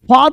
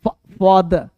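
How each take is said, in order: First: The d is followed by no vowel sound. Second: The d is followed by a short vowel sound. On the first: The speaker calls it wrong. "फाद नहीं" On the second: The speaker calls it right. "द में थोड़ा अ लगाना है"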